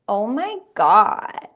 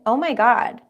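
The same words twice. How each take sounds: First: The vowels are drawn out long. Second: The vowels are short and normal.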